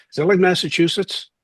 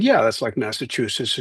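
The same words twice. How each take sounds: First: Higher-pitched puzzled Philly question; Philly accent. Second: Said in the usual way. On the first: Retold or imitated. Friend puzzled about New Hampshire, Philly accent. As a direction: mimic a clueless Philly tough kid. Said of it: "he had the Philly accent". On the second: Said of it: "And I said".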